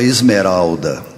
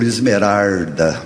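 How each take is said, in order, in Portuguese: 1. A consoante do meio é pronunciada como L. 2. A consoante do meio é pronunciada como R. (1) "eu tinha uma tia que chamava Esmeralda" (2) "mas ela era conhecida por Esmerarda"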